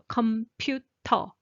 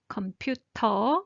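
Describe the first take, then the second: First: The t sound is strong and forceful. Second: The t sound is strong and forceful.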